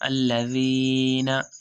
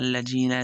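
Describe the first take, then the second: First: The middle consonant is the letter dhal sound. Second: The middle consonant sounds like a 'j'. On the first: The speaker calls it right. "दाल पढ़ेंगे" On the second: The speaker calls it wrong. "ऐसे नहीं पढ़ेंगे"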